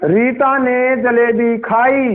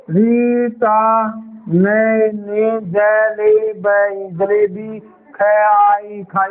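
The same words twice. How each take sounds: First: Slow reading. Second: Very slow, words stretched and repeated; halting stumbling reading. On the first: Teacher reading slowly to show the sentence. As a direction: read slowly, word by word. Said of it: "ऐसे पढ़ना है". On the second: Teacher mimics a child reading badly, halting. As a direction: stumble like a struggling reader. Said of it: "ऐसे नहीं पढ़ना". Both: Shown as a demonstration.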